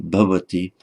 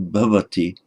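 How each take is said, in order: No difference in how they are said.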